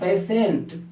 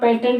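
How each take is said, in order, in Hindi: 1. बीच का व्यंजन sh की आवाज़ है। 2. बीच का व्यंजन t की आवाज़ है। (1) "क्या होता है" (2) "पेटेंट नहीं होता है"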